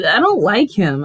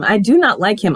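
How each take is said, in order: First: Said in the usual way. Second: "not" stressed, each word separate; emphatic NOT. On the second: Real, not acted. Viewer restating dislike of a character, firm stress on "not". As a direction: hit "not" firmly.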